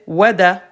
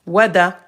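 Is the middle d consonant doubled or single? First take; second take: single; single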